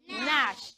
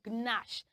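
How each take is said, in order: First: The word begins with an n sound. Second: The word begins with a g sound. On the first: The speaker calls it right. "is pronounced Nash" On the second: The speaker calls it wrong. "and not Gnash"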